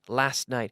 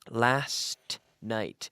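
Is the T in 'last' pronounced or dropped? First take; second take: dropped; pronounced. First: The T in last is dropped. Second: The T in last is clearly pronounced.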